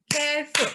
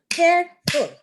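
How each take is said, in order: First: Careful. spoken as two clapped beats, CARE then ful; split into syllables. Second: Careful said high and loud, both syllables hit; syllables stressed. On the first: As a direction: say Careful. beat by beat, one clap per syllable. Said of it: "This is how I teach in my class". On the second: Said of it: "two syllables". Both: Shown as a demonstration.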